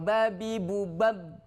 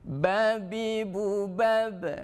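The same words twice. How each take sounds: First: The final b stops flat without a bounce. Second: The final b is released with an echoing bounce. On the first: The speaker calls it wrong. "Tidak cukup kalau" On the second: The speaker calls it right. "ba punya sifat namanya kolkolah"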